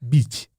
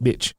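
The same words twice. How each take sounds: First: "bitch" said as "beetch", long ee; French-style pronunciation. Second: Said in the usual way. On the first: Shown as a demonstration. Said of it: "So maybe it said bitch". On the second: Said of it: "but it's spelt bitch".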